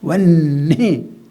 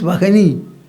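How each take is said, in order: First: The h is dropped, giving a doubled n. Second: The h sound is pronounced between the vowels. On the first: This is how the word should be spoken. "you have to pronounce it as vanni" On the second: This is how the word is written. "Actually, it is vahani, written vahani"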